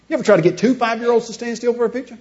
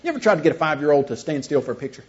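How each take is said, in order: First: Higher-pitched question leaning on "two"; stress on TWO. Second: Said in the usual way. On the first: Shown as a demonstration. Speaker tops his own question to the audience, stressing "two". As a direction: lift the question, making "two" the new point.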